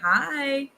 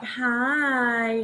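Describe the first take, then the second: First: It is said in a plain, friendly way. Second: It is said in a flirty, suggestive way.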